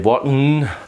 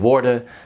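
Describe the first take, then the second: First: The final N is clearly pronounced. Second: The final N is dropped. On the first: This is how German speakers would say it. "they would say worden" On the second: This is how many Dutch speakers say it. "I slack off the N. A lot of Dutch do"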